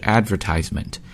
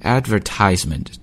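First: The stress is on the third syllable. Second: The same.

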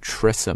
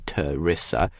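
First: The weak vowel after the first sound is dropped. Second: The weak vowel after the first sound is kept. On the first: "有的时候这个央化的这个音会读得特别的弱，干脆就直接撞上了" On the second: "这个 schwa 的 E sound Theresa"

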